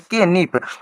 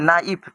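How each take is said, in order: First: It starts with a sounded k. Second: It starts with an n sound. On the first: The speaker calls it wrong. "ये लिखा है ना हम लोग पढ़ेंगे के नीफ" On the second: The speaker calls it right. "के को हम तो हटा देंगे, इसको हम लोग पढ़ेंगे नाइफ"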